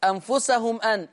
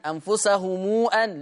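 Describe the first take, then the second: First: Said in the usual way. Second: أنفسهم أن: الميم موصولة بواو، أنفسهمُو; مد ميم الجمع بضمة موصولة; صلة ميم الجمع. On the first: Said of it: "قرأ ورش بصلة ميم الجمع". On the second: Shown as a demonstration. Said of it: "بصلة ميم الجمع". (أنفسهمو أن بالصلة)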